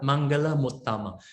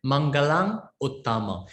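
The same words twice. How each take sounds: First: Mangala Muttama with the m carried over onto Muttama; smooth sandhi form. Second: Mangalang Uttama with the final ng sounded; joined with ng. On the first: Teacher showing the smooth sandhi reading, m linked. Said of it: "When you pronounce like Mangala Muttama". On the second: Teacher demonstrating the hard joined form, ng sounded. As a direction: say Mangalang Uttama keeping the ng before Uttama. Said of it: "due to the Sandhi". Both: Shown as a demonstration.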